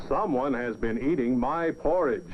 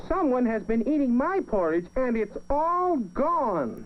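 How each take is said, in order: First: Big Papa Bear voice. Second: Much higher tiny cub, slowing on the last words; wee little voice. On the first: Papa Bear notices his porridge was eaten, big voice. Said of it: "in his big voice". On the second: Baby Bear finds his porridge all gone, tiny high voice. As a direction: squeak it sadly like a little bear. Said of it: "in his wee little voice". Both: A narrator's reading.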